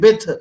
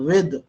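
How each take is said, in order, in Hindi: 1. शब्द की शुरुआत b आवाज़ से होती है। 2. शब्द की शुरुआत v आवाज़ से होती है। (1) "कुछ लोग बिथ कहते हैं, बिथ, तो बिथ नहीं होता" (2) "विद होता है"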